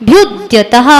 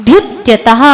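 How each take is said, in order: No difference in how they are said.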